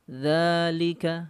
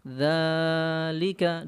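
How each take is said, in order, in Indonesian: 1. Vokal pertama ditahan selama dua harakat. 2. Vokal pertama ditahan selama empat harakat. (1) "dua harokat ya. Atau dibaca satu ayunan ukurannya" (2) "dua ayunan, nah ini terlalu panjang ukurannya"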